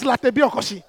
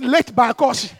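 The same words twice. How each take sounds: First: "Latebiokosi" as one local word, "la-teh-bi-o-ko-shi"; local pronunciation. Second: "late by Koshi" slowly, as three English words; foreigner's pronunciation. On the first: Preacher giving the local name, "Latebiokosi" in its Ghanaian pronunciation. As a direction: run "Latebiokosi" together with open Ghanaian vowels. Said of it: "the local name is". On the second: Returnee trying to act like a foreigner, anglicised slow "late by Koshi". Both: Shown as a demonstration.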